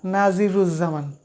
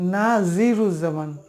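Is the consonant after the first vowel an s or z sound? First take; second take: z; z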